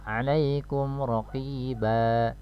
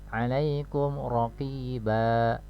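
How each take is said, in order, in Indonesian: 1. Kata terakhir berakhir dengan vokal panjang. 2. Kata terakhir berakhir dengan vokal panjang.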